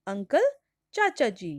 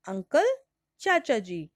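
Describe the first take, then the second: No difference in how they are said.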